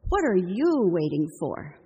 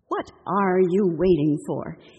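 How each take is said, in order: First: It is asked in a mildly impatient tone. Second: It is asked in a very exasperated tone. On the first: The listener's delay is starting to bother the speaker. "mild impatience" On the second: The listener's delay has badly frustrated the speaker. "extreme exasperation"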